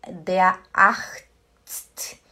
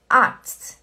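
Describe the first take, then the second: First: Der Arzt with a short clipped a; wrong short a. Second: Arzt with a long, stretched a. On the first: Teacher demonstrating the wrong Arzt, short a. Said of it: "não fala der". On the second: Teacher showing the right Arzt, long a. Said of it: "É como se fosse um A longo". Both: Shown as a demonstration.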